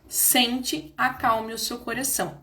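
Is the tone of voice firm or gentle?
firm. The voice sounds a bit more firm.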